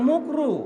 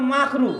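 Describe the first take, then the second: First: The first vowel is a 'u' sound. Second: The first vowel is an 'a' sound. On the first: Hearers take it as something harmless. The speaker calls it wrong. "হুজুররা মাকরু ঠিকভাবে বলে না, মুকরুতে বলে" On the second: It means something disliked or harmful. The speaker calls it right. "আসলে শব্দটা হচ্ছে মাকরু"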